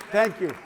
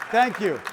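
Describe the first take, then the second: No difference in how they are said.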